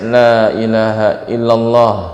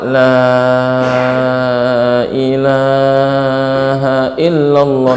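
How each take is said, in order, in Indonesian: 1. Frasa ini diucapkan dengan tempo biasa. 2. Frasa ini diucapkan sangat perlahan dan panjang. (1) "Jadi ucapkan biasa" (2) "Jangan juga terlalu lama"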